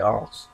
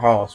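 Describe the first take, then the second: First: The h is dropped, Yorkshire style. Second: The h at the start is pronounced.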